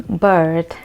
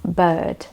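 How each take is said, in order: First: "bird" with the R sounded; attempted American "bird", tongue curled on the R. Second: "bird" with no R, like "buhd"; British "bird", tongue not rolled; British silent R. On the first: Teacher not good with American accent, attempted rhotic R. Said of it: "not really good with American accent". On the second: Teacher showing British accent, R left silent. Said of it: "In British accent, it is pronounced". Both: Shown as a demonstration.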